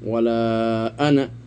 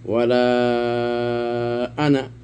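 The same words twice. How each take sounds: First: The final vowel of ana is kept short. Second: The final vowel of ana is stretched long. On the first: "এটা কসর পড়লাম" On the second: "এটা মদ সহ পড়লাম"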